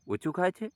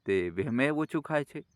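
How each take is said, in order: First: Rising, wounded disbelief at the words; hurt surprised echo. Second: Said in the usual way. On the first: A narrator's reading. Old mother echoing her daughter-in-law's remark, hurt and surprised. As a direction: repeat it back high, stunned.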